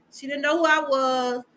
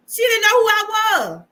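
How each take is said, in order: First: Said in the usual way. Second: Stressed loud and high; louder, higher emphatic statement. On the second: Real, not acted. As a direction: land it hard, it still stings.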